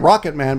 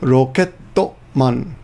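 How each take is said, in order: First: It is said with English pronunciation, two syllables. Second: It is said with Japanese pronunciation, extra vowels. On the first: The speaker calls it wrong. "I gotta be careful not to pronounce that in English. I want to say rocket man" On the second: The speaker calls it right. "but it's rokettoman"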